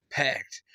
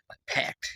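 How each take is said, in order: First: Said in the usual way. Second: Breathy whisper on packed; whispered aside. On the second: Acted. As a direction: drop to a secret whisper. Emphatic aside about crowding.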